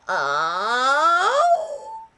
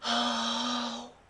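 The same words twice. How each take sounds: First: The vowel is squeezed with a tight voice. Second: The vowel is soft with air escaping. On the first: "you're tightening, you're squeezing" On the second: "in a pure breathy voice"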